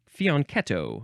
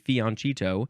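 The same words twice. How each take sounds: First: The consonant before -etto is a k sound. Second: The consonant before -etto is a ch sound. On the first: The speaker calls it right. "technically the correct pron- pronunciation, quote unquote, is fianchi- fianchetto. I think it's keto" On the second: The speaker calls it wrong. "You can see why people want to say fianchetto"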